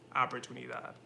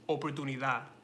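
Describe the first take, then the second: First: It is said with English vowel sounds. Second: It is said with Spanish vowel sounds. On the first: The speaker calls it wrong. "but I was saying oportunidad" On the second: The speaker calls it right. "Spanish is oportunidad"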